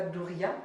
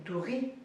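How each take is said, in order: First: "douria" with a sounded final a; the mistaken "douria", final vowel pronounced; wrong pronunciation. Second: "douri" with the final vowel dropped; the corrected "douri", nothing after the i; right pronunciation. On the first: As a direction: say "douria", letting the final a ring out. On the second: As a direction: say "douri", stopping on the i. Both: Shown as a demonstration. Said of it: "C'est pas douria, c'est douri".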